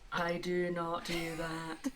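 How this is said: It is said flat and neutral. "without feeling? ... very neutral of you"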